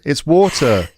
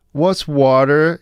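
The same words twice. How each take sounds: First: "water" the British way, with "aw", pitched high; a kid insisting on British "water"; child's correction. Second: "water" drawn out the American way, pitched high; a kid slowly querying American-style "water"; puzzled child's mimicry. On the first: Acted. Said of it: "And then your kid goes". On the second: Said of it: "just the way I pronounce it".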